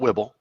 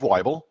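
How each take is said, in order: First: The first syllable does not rhyme with 'Bible'. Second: The first syllable rhymes with 'Bible'. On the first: The speaker calls it wrong. "not Wibble" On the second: The speaker calls it right. "it's Weibel like Bible"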